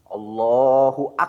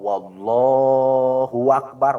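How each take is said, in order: First: The b in Akbar is doubled. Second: A w sound comes before Allah. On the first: "Atau dina akbar ada tasdidan dina huruf ba'na" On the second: "Atau dari lapad Allah ada wawu"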